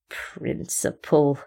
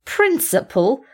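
First: Slow, low, soft sneer on Principle. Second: Slow, higher scornful Principle?; mocking question. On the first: Acted. Speckle mocks the cat's principle with a slow sneer. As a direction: drag the word out in contempt. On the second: Speckle repeats the word in a slow scornful question. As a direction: toss the word back incredulously. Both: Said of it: "he sneered".

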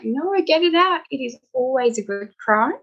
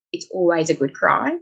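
First: Higher, imitated reassurance to a patient; mock doctor's reassurance. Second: Said in the usual way. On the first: Doctor to a patient apologising for crying, reassuring. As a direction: urge the patient on, pitched up. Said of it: "I'm like". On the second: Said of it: "One I always say is".

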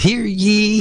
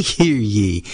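First: High ringing crier's call; town crier. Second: Said in the usual way. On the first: Acted. Host announces the listening game.

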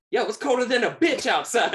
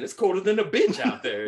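First: High, loud laughing impression of a rough lady; laughing crackhead lady voice; mimicking the crackhead lady. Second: Higher, louder mock of the lady; lady voice again. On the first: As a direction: play her barging in, loud and high. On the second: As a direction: quote her barging in, loud and high. Retelling lady busting in again.

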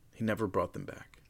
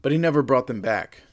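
First: Quiet ominous. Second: "never" said loud and firm; emphatic never. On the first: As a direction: drop to an ominous hush. Dramatic repeat, softer. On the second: Dramatic repeat. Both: A narrator's reading.

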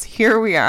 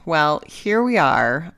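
First: Said in the usual way. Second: Stretched, slow and emphatic; slow and drawn out. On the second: Real, not acted. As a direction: let each word sink in.

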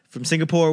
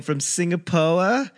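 First: Said in the usual way. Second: Singapore slowed, ending in "poh-uh"; r-less Singapore. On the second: Acted. Comic listing his flight stops, stretched r-less Singapore. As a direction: drop the final r in Singapore and stretch it. Repeats place name, then says normally.

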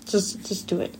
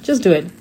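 First: Breathy whispered urging. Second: Said in the usual way. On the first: Real, not acted. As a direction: drop to a soft whisper for the last push. Repeating advice, then drops to whisper.

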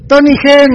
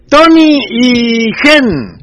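First: Llamada rápida, más aguda y fuerte; llamando en voz alta. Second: Nombres alargados muy despacio, en voz alta; llamando en voz alta. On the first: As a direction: vuelve a gritar los nombres con energía. (llamada aguda y enérgica) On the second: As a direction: estira los nombres como quien llama a alguien de lejos. (llamada alargada y fuerte) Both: Real, not acted. Llamando a amigos por micrófono.

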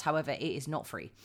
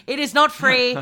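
First: Said in the usual way. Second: NOT free, hit hard and loud; emphatic, louder. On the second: Acted. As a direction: punch the word not in not free. Repeats the point louder.

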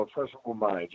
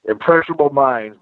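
First: "impressionable minds" repeated much softer, almost to himself; quiet repeat. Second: "impressionable minds" said firmly, with weight on "impressionable"; stressed. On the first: Scene: repeating the lesson to a friend, softly. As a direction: let "impressionable minds" drop to a soft echo. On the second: Scene: telling a friend that kids absorb everything, stressing "impressionable". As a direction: lean on "impressionable" to drive the point home. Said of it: "bro, impressionable minds". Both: Shown as a demonstration.

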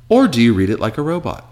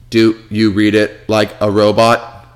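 First: Said in the usual way. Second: Slow, even robotic reading. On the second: Shown as a demonstration. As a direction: read it out like a machine.

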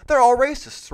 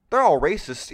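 First: Louder, higher sarcastic mock outcry; mock yell. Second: Said in the usual way. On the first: Host mocks the critics' claim with a louder, higher sarcastic yell. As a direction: ham up the accusation.

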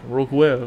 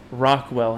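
First: Put-on Rockwell with a thick French accent. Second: Said in the usual way. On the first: Friend imitating the French missionary repeating a word, French accent. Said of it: "French accent". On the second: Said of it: "I'd be like, "Say".

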